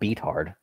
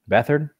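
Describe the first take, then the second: First: The first syllable sounds like 'beat'. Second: The first syllable sounds like 'beth'. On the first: The speaker calls it wrong. "not beat hard" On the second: The speaker calls it right.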